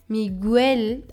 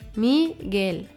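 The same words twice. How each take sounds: First: The u is sounded separately before the e. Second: The u is silent after the g. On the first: The speaker calls it wrong. "wenn das U Umlaute hätte. Dann würde das U und das E getrennt ausgesprochen werden" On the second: The speaker calls it right. "in diesem Fall hat Miguel keine Umlaute"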